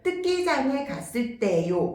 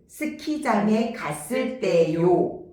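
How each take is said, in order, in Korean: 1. 첫 'ㅅ' 소리가 빠졌거나 분명하지 않아요. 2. 첫 'ㅅ' 소리가 분명하고 과장되어 있어요. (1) "시옷 발음이 잘 안 될 수 있어요" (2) "입 근육을 오버해서"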